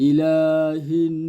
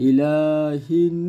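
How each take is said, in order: Both takes have the same delivery.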